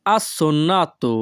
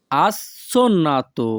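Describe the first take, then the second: First: Said in the usual way. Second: Assonnato split as "as... sonnato"; slower assonnato, pause after "as"; syllable by syllable. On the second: Shown as a demonstration. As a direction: break assonnato after its first syllable for learners. Teacher repeats word split for learners.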